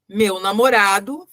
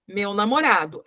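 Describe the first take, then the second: First: Slow, rising on namorado as if a comma follows; rising mid-sentence tune. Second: "meu namorado" drops to a full stop; falling final tune. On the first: Teacher reads the appositive mid-sentence, rising slowly. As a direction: let "meu namorado" rise and hang, sentence not finished. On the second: Teacher reads the appositive at sentence end, falling. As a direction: close the sentence with a fall on namorado. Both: Shown as a demonstration. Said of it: "Aí eu não ponho duas vírgulas, porque tem o ponto final".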